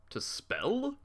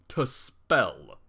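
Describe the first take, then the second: First: Puzzled question. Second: Dead-pan echo of the odd word; flat, baffled repeat. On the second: Reader rereading a typo, baffled deadpan. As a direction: repeat it in disbelief. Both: Real, not acted.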